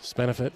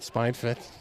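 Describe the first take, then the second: First: The words run together with an extra vowel. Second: The two words are said cleanly and separately. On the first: The speaker calls it wrong. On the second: The speaker calls it right.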